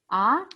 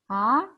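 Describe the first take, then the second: First: The pitch rises from mid to high. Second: The same.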